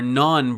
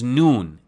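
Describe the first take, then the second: First: The vowel is 'a', as in standard Persian. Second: The vowel is 'u', as in Tehrani Persian.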